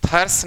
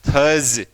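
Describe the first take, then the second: First: The word ends with a hissing s sound. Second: The word ends with a buzzing z sound. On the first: The speaker calls it wrong. "थर्स नहीं" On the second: The speaker calls it right.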